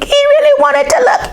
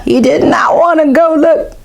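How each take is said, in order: First: Higher, keen; eager. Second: High, fearful; mock scared. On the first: Acted. Boy torn between wanting to look, eager. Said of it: "repeated higher". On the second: Boy scared to go look, high and fearful. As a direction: pull back from the dark. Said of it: "repeated, scared".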